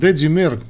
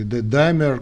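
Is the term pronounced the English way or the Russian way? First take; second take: Russian; English. First: The term is pronounced with Russian sounds. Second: The term is pronounced with English sounds.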